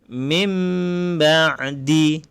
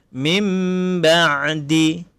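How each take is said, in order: No difference in how they are said.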